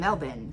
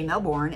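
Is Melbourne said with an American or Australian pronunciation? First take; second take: Australian; American. First: It is said with an Australian pronunciation. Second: It is said with an American pronunciation. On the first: This is how Australians say it. "you say Melbourne" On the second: This is how locals in Florida say it. "they say Melbourne"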